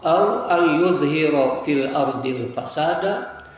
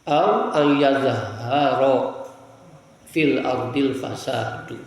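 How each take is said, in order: First: The ya has u, and the ha has i. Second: The ya and the ha both have a. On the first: Moses makes corruption appear in the land. "Kalau di sini didomahkan ya, dikasrohkan ha" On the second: Corruption appears in the land. "menurut qiraat yang lain di fathahkan ya dan di fathahkan ha"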